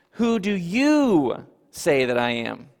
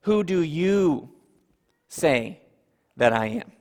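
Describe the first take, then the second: First: "you" leaned on, slow and deliberate; stress on you. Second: "you" pointed and held, then "say" and "that I am" spaced out; slow, each chunk set apart after "you"; emphatic you with pauses. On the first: Preacher quoting Jesus to disciples, stressing "you". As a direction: press on "you" in Who do you say that I am. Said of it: "that word "you" is emphatic". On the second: Preacher has congregation point at their own chest, emphatic "you". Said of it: "It's as if Jesus is saying". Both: Shown as a demonstration.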